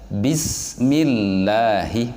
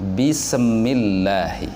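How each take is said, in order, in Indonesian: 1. Bunyi s mengalir halus tanpa pantulan. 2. Bunyi s diakhiri dengan pantulan bergema. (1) "Harusnya bismillahi" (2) "bukan bismillahi"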